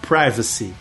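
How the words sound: It is said in an American English accent.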